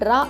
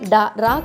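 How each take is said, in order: First: The d and r sounds join directly. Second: A vowel separates the d and r sounds. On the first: The speaker calls it right. "డ్రా అవుతుంది" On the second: The speaker calls it wrong. "డా రా కాకుండా"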